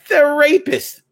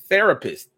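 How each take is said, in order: First: It is split into two words. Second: It is said as one word. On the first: It names a criminal rather than a counselor. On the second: It names a counselor.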